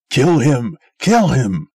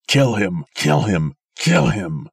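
First: Loud, higher frenzied KILL him; raving. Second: Loud croaking KILL him, less frenzied; croaked. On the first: Old man raving at the crowd to kill Sim, very loud. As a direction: rave for his death. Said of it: "raved the old man". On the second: Failing old man croaking at the crowd to kill Sim. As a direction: croak out the demand. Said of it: "croaked the old man". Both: A narrator's reading.

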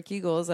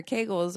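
First: "Kegels" said KEE-gulls; "Kegels" rhyming with eagles; alternative pronunciation. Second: "Kegels" said KAY-gulls; "Kegels" rhyming with bagels; alternative pronunciation. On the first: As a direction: say "Kegels" with an EE in the first syllable. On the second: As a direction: say "Kegels" with an AY in the first syllable. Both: Shown as a demonstration. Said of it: "which way to pronounce it".

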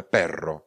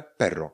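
First: "perro" with a long trilled RR; vibrating, drawn-out R in the middle of "perro"; rolled double R. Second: "perro" said as pero, one short R; brief single R in "perro", word-model delivery; single-tap R. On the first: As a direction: roll the R hard in "perro". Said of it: "s dvěma R vyslovujeme perro". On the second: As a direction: tap the R just once in "perro". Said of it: "pero se píše i s jedním R". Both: Shown as a demonstration.

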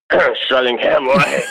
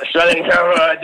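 First: Slow, slurred, reluctant answer; acted-out mumble, hoping not to be heard; embarrassed mumble. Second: Higher, quicker repeat, still slurred; acted-out embarrassed admission, pitched up; reluctant repeat. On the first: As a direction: clear your throat and mumble it sheepishly. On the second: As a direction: say it up higher, wanting it over with. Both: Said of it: "No, what was that?".

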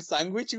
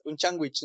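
First: "sándwich" said loosely as "sángüich"; colloquial mispronunciation. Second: "sándwich" garbled into slangy "chángüich"; homely Mexican "chángüich" for "sándwich"; colloquial mispronunciation. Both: Shown as a demonstration. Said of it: "ni siquiera las pronuncias bien".

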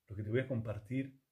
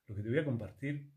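The two takes are said the same way.

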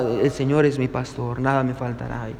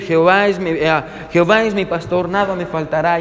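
First: Low, soft recitation, imitating an embarrassed elder; ashamed old pastor. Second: Lightly voiced actor reciting a psalm; actor's recitation. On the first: Elderly pastor reciting after the applauded actor, imitated as ashamed, quiet and low. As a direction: recite it humbly, low and small. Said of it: "se podía notar el temblor en sus palabras, tenía vergüenza". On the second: Famous actor reciting the psalm to his audience, lightly imitated. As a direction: recite it evenly at a normal speaking level. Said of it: "su voz y su entonación eran simplemente perfectas".

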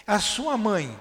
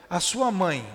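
The two takes are said the same way.

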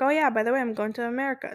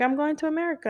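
First: Offhand, matter-of-fact news; blunt casual announcement. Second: Gentle, careful telling; more sensitive. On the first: Shown as a demonstration. Mom breaking news to her child, bluntly offhand. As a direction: toss it off like it's nothing. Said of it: "Not, not like that". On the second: Retold or imitated. Mom telling her seven-year-old she's leaving, gently. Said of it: "like, a lot more sensitive".

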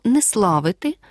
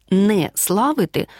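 First: Said in the usual way. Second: "не славити" slower, with "не" set apart; two separate words. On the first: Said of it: "разом пиши слово". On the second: Shown as a demonstration. Teacher contrasting spellings, "не славити" slowly said as two separate words. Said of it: "пиши окремо".

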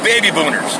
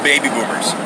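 First: BOONERS said with an N in place of M; slip of the tongue. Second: BOOMERS said with a clear M in the middle; corrected name. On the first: Bar worker misnames the old bar, saying "Booners" with an N. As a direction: stumble into "Booners" for Boomers. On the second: Storyteller redoes the bar's name, saying "Boomers" with an M. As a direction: land the M in "Boomers". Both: Real, not acted.

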